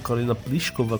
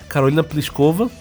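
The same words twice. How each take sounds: First: The surname is said the original Czech way. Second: The surname is said the usual Brazilian way.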